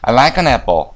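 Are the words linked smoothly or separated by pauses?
linked. The words run together without any pauses. The speaker calls it right. "한 번에 다 되죠"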